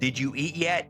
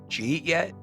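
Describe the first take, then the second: First: Every word is pronounced fully and separately. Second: The words are reduced and run together. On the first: "It'll say that on the subtitle" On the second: "but it comes out of his mouth"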